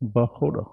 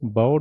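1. ਵਿਚਕਾਰ h ਦੀ ਆਵਾਜ਼ ਸੁਣਾਈ ਦਿੰਦੀ ਹੈ। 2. ਵਿਚਕਾਰ ਕੋਈ h ਦੀ ਆਵਾਜ਼ ਸੁਣਾਈ ਨਹੀਂ ਦਿੰਦੀ। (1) "ਹਾਹੇ ਤੇ ਔਂਕੜ ਪੜ੍ਹਨੀ ਹੈ" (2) "ਬਾਉੜ ਨਹੀਂ ਕਹਿਣਾ"

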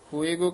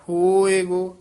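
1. ਸ਼ਬਦ ਛੋਟਾ ਕਰਕੇ ਬੋਲਿਆ ਗਿਆ ਹੈ। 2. ਸ਼ਬਦ ਲੰਮਾ ਖਿੱਚ ਕੇ ਬੋਲਿਆ ਗਿਆ ਹੈ। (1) "ਕਹਿ ਦਿੱਤਾ ਤਾਂ ਈੜੀ ਤੇ ਲਾਂ ਲੱਗ ਜੇਗੀ" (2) "ਲਮਕਾ ਕੇ ਬੋਲਣਾ ਹੈ"

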